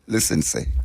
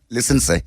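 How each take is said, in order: First: It is said in a calm, businesslike voice. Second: It is said in a loud, raised voice.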